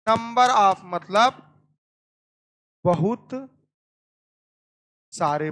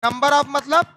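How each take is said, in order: First: Slow teacher repeat. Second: Said in the usual way. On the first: Shown as a demonstration.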